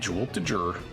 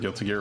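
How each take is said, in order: First: The name is said with a deliberately odd pronunciation. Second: The name is said with its usual pronunciation.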